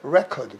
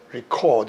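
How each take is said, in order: First: The stress is on the first syllable. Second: The stress is on the second syllable. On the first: It is a noun meaning a music record. "명사를 쓸 적에는 강세 앞으로 간다" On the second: It is a verb meaning to write down. "동사로 쓰면은 강세가 뒤로 간단 말이에요"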